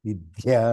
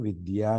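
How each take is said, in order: First: The 'd' sound is pressed hard, with extra pressure. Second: The 'd' sound is said lightly, without extra pressure. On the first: The speaker calls it wrong. "విద్య అని కాదు" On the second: The speaker calls it right. "Pronunciation విద్య అని రావాలి"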